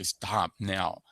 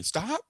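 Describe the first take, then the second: First: "Stop now" louder and falling, firm; mock mother's firm falling order; firm command. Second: Imitating mom, "Stop" jumping up high and louder with a rise; a mock high-pitched rising "Stop"; high shrill stop. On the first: Mother stopping child with scissors, firm falling command. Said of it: "She'd say". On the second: Mother seeing kid run with scissors, high rising stop. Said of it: "she wouldn't say".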